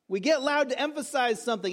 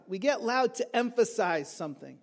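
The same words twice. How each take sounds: First: Mildly raised, emphatic restatement; slightly louder for emphasis. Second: Said in the usual way. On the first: Shown as a demonstration. Preacher shows the congregation how loudness emphasizes, mildly emphatic. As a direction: repeat it with a little more force. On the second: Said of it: "Why do we get loud?".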